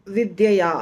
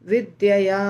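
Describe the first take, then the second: Both takes have the same delivery.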